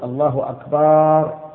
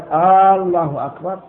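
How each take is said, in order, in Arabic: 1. تُمَدّ الحركة التي بعد صوت الباء. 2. تُمَدّ الحركة الأولى في الكلمة الأولى. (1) "أن لا يمد الباء" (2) "ويشترط أن لا يمد الهمزة لا في الجزء الأول منها"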